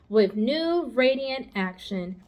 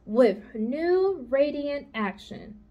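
First: Each word slow and weighed, With new radiant action; slow, pondering. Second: Slow reading. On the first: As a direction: spell it out slowly, thinking. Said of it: "repeated Charlotte slowly". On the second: Charlotte reads the soap ad. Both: Acted.

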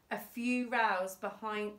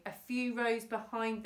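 First: Rows said to rhyme with cows; mispronounced rows. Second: Said in the usual way. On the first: Real, not acted. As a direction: say rows like the word for quarrels.

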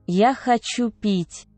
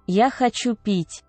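Both takes have the same delivery.

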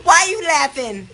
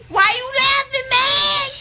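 First: Said in the usual way. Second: High, rising yell of protest; indignant shout. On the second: Real, not acted. Patient challenging whoever laughs, indignant high shout. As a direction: repeat it as a high, loud demand.

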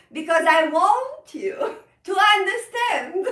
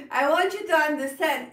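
First: Stretched out, higher and louder, lingering on "want"; rubato phrasing. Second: Said in the usual way. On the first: Shown as a demonstration. Teacher showing students rubato in her own speech, slowed and swelling. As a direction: lean on "want" and let the time pull back. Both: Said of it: "I am doing a feeling of rubato".

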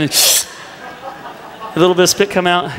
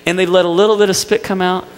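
First: Drawn out through laughter; slowly drawling the words as a laugh breaks through. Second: Said in the usual way. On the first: Retold or imitated. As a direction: stretch it slowly while laughing. Retelling brother's spit tease.

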